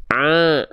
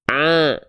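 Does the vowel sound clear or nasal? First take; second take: nasal; nasal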